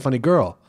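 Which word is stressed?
Girl. The stress falls on the last word. The speaker calls it wrong. "That would be insane to say"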